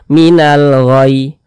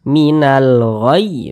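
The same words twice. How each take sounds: First: The final 'ghayy' is said flat, without pressing. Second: The final 'ghayy' is pressed with raised pitch. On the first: It hides that the final letter is doubled. The speaker calls it wrong. "Kalau cuman kita baca seperti ini" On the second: It shows that the final letter is doubled. The speaker calls it right. "huruf ya-nya itu kita naikkan intonasi suaranya, kita tekan"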